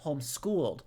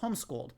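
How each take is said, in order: First: The stress is on the second part, schooled. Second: The stress is on the first part, home. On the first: The speaker calls it wrong. "They put this weird like second word emphasis on it" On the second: The speaker calls it right. "that's to me that's how you say it"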